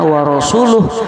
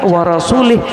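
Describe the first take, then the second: First: The last word ends with an 'uh' sound. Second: The last word ends with an 'ih' sound. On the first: God and His Messenger both disown the idolaters. The speaker calls it right. "Kalau bacaannya wa rasuluh" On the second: God disowns both the idolaters and His Messenger. The speaker calls it wrong. "Tapi kalau dibaca wa rasulih"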